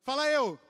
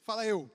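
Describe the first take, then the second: First: Much louder, pushing for a bigger answer; louder call. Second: Called out to the congregation; call for response. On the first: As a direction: shout it to the back row. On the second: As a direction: prompt them to answer. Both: Shown as a demonstration. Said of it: "Obrigado, lá no fundo".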